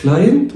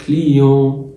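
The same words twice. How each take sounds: First: كلاينت with an English "eye" vowel and sounded T; English pronunciation. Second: كليون with an "ee" vowel and nasal ending, no T; French pronunciation. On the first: Teacher quizzing the class with the wrong option, English pronunciation. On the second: Teacher quizzing the class with the right option, French pronunciation. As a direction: draw out كليون as "klee-on", silent T. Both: Shown as a demonstration. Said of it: "فأقول إيه؟".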